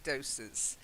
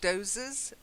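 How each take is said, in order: First: The middle sound is a hard, hissing s. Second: The middle sound is a soft, buzzing z. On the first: It means small amounts of medicine. The speaker calls it right. "but it should be doses" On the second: It sounds like dozing off for a little sleep. The speaker calls it wrong. "she says doses"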